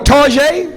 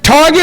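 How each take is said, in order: First: It is said the fancy French-sounding way. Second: It is said the plain English way.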